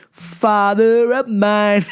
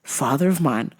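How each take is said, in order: First: Very slow, louder, stretched; drawn-out exasperation. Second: Said in the usual way. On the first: Shown as a demonstration. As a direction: drag out each word in disbelief. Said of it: "drawn out emphatic repeat". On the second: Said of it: "repeated for emphasis".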